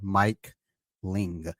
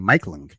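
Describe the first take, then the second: First: The name is said slowly, words kept apart. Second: The name is said quickly, words run together. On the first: The speaker calls it right. "I had to say that slowly" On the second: The speaker calls it wrong. "I felt like I was saying Mike Ling"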